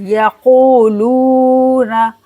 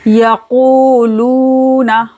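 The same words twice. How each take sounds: First: Yakuluna slowly, ku and lu drawn out; repeated madd. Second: Yakuluna very slowly with ku and lu stretched; both long. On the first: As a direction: draw both vowels in yakuluna. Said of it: "दोनों वाव मद हो रहा है". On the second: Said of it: "दोनों को खींचना है". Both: Shown as a demonstration.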